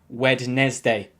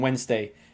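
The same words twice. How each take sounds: First: The D in the middle is sounded. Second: The D in the middle is silent. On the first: The speaker calls it wrong. "no excuse for pronouncing it like Wednesday" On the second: The speaker calls it right. "the D is silent"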